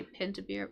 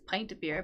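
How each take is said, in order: First: "pint" with a short i, as in "pin"; "pint of beer" with short-i "pint"; own pronunciation. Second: "pint" with a long i, as in "pie"; "pint of beer" with long-i "pint"; better pronunciation. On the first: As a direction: say "pint" to rhyme with "mint". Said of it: "I say pint of beer". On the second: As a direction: say "pint" like "pine" with a t. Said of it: "Probably pint is better". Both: Shown as a demonstration.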